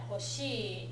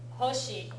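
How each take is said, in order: First: The pitch rises on the long second vowel. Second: The pitch does not rise on the second syllable. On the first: "hoshi goes up on the long vowel" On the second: "Hoshi, star, goes this way"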